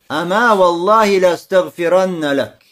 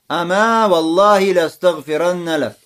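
First: The first word ends with a long a vowel. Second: The first word ends with a long a vowel.

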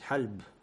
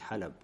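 First: The word is said as one syllable. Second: The word is said as two syllables. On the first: The speaker calls it wrong. "по аналогии должно быть хальб; этот вариант халб, он слабый" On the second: The speaker calls it right. "а правильно известно это халаб"

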